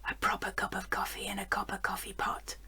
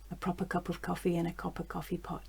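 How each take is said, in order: First: It is said in a louder, forced whisper. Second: It is said in quiet voiced speech. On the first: "a bit louder, more of a forced whisper" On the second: "And then quiet speech"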